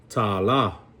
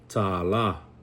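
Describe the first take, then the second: Both takes have the same delivery.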